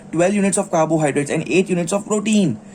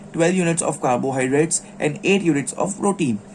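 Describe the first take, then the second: Both takes have the same delivery.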